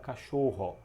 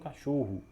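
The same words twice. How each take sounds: First: The word is said with careful, detailed articulation. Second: The word is said in a relaxed, casual way. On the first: "com mais detalhes" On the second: "eu mesmo falo cachorro"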